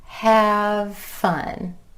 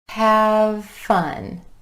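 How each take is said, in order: No difference in how they are said.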